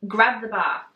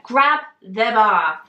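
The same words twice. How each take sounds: First: Said in the usual way. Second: Slow, louder "Grab the bar", each word weighted; insistent order. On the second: Retold or imitated. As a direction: repeat "Grab the bar" slowly and forcefully. Trainer repeats the order firmly.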